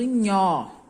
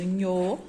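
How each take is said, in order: First: The vowel is an open o sound. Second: The vowel is a closed o sound. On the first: "som aberto do nhó" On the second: "som fechado do nhô"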